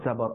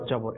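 First: The word begins with a z sound. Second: The word begins with a j sound. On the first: The speaker calls it right. "অর্থাৎ জা দিয়ে" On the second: The speaker calls it wrong. "এটা কিন্তু জবর হবে না"

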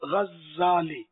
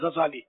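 First: The z sound is held long and doubled. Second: The z sound is short and single. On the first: The name comes from the word for a thread spinner. "زا پر تشدید آئے گا، غزالی double زیڈ" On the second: The name comes from another origin and is common locally. "بغیر اس کے پڑھتے ہیں تشدید کے"

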